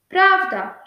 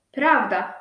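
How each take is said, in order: First: "Prawda" higher and louder, a quick falling exclamation; emphatic agreement. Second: Said in the usual way. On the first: Acted. Tadeusz eagerly agreeing with the rejent, "Prawda" high and louder. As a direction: throw out "Prawda" as a bright eager yes. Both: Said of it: "rzekł mój rejencie".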